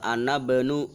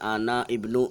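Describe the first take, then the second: First: The words run together without the i sound. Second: The i sound of ibnu is said separately. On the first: The speaker calls it right. "Jadi langsung terbaca uh" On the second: The speaker calls it wrong.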